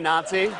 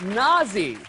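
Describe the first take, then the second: First: The middle consonant is a ts sound. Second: The middle consonant is a z sound. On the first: The speaker calls it right. "he doesn't know how to say Nazi?" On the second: The speaker calls it wrong. "He makes it sound like British slang for sex"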